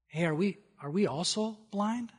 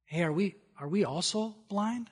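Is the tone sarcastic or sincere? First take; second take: sincere; sincere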